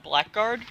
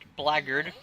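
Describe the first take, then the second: First: Both parts of the word are said in full. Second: The word is reduced, with a weak second part. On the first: This is the speaker's preferred way. "Sounds cooler as blackguard" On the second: This is the official pronunciation. "or as it's pronounced"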